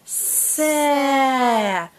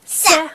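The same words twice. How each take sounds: First: "Sa" with a long hiss and held vowel; read slowly. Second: Short, higher "Sa"; read quickly. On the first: Teacher reading with a child, drawn out. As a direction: stretch "Sa" out slowly. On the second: Teacher reading with a child, quickly. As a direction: cut "Sa" to a brief syllable. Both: Shown as a demonstration. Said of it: "Let's read them quickly".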